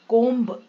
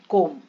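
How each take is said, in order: First: The word ends with an audible b. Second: The word ends on an m sound. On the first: The speaker calls it wrong. "कोम्ब नहीं बोलते" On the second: The speaker calls it right. "कोम कंगा है ना"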